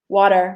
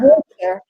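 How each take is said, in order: First: It is said with an American-style pronunciation. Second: It is said with a British-style pronunciation. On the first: "and not water" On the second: "we would say water"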